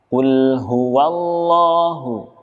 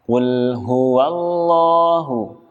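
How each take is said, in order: No difference in how they are said.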